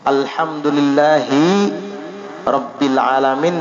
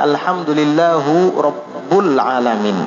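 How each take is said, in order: First: The word endings are pronounced with an i vowel. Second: The word endings are pronounced with a u vowel. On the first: The speaker calls it right. "dia membaca alhamdulillahi rabbil alamin" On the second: The speaker calls it wrong. "dibacanya alhamdulillahu rabbul alamin"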